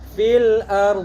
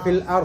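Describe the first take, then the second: First: The final consonant is held and flows on. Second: The word stops at the r sound. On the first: The speaker calls it right. "tapi do-nya harus dialirkan" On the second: The speaker calls it wrong. "Jangan sampai fil ar sampai ro saja"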